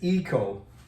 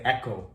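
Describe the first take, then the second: First: The first vowel sounds like "ee". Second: The first vowel sounds like "eh". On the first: The speaker calls it right. "The pronunciation is eco, as in ecology" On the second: The speaker calls it wrong. "usually Koreans say echo, but it's not echo"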